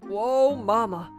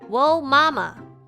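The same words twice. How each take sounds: First: It is said in a put-on macho voice. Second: It is read in her ordinary speaking voice.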